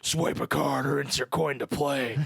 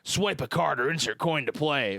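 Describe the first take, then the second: First: It is said in a deep Batman voice. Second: It is said in an ordinary voice.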